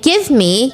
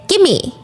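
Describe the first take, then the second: First: The two words are said separately and fully. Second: The two words are run together into one. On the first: "Instead of saying" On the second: "you say"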